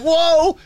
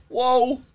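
First: Very high, loud shocked whoa; loud high cry of shock; startled whoa. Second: High, loud startled whoa; sudden loud high yelp of surprise. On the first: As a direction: yelp it like a jolt hit you. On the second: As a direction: blurt it out in shock. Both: Retold or imitated. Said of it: "That's literally how I said it".

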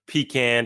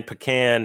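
First: Pecan said as PEE-can; PEE-can pronunciation. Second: Pecan said as puh-CAN; puh-CAN pronunciation. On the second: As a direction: say pecan with a weak first vowel and a short a, puh-CAN. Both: Shown as a demonstration. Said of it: "however you want to".

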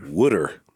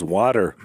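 First: "wooder" with the vowel of "wood"; Jersey pronunciation. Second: Said in the usual way. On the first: Shown as a demonstration. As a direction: say "wooder" for water, first syllable like "wood". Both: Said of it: "He calls water wooder".

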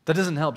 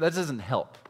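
First: "doesnt" hit harder and louder, falling; stress on doesn't. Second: Said in the usual way. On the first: Shown as a demonstration. Preacher repeating to parents that advice fails, stressing doesnt. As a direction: punch the word "doesnt".

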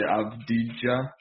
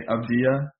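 First: Avdija with the J clearly hit; sounded J. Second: Avdia with the J almost dropped; silent J. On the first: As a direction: say Avdija as "Av-dee-jah". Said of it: "a lot of people say". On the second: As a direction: say Avdia as "Av-dee-ah", gliding over the J. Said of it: "don't even hit the J". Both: Shown as a demonstration.

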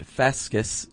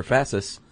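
First: "fascis" said with a k sound, fass-kiss; hard-c Latin pronunciation. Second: "fascis" said with an s sound, fass-iss; soft-c pronunciation. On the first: Explaining the Latin root to his co-host, "fascis" with a hard k. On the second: Offering the other Latin reading, "fascis" with a soft c. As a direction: soften the c in "fascis" to an s. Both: Shown as a demonstration. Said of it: "or fascis".

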